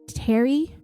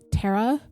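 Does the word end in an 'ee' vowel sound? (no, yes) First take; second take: yes; no. First: It ends in an 'ee' vowel, like 'Terry'. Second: It ends without an 'ee' vowel. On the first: The speaker calls it wrong. "we don't say Terry" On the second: The speaker calls it right. "we say Terre"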